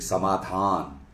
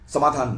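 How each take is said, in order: First: The long vowel is held fully long. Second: The long vowel is cut short. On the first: The speaker calls it right. "ये थोड़ा सा लंबा होता है" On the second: The speaker calls it wrong. "समाधान नहीं"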